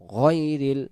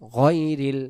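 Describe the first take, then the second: Both takes have the same delivery.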